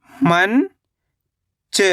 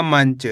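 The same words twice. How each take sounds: First: मंच as long rising "man", pause, "cha"; split syllables. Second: Said in the usual way. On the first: Shown as a demonstration. Teacher breaking down मंच for learners, split syllables. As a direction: stretch मंच into two separate syllables. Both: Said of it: "तो मिलके बन जाएगा".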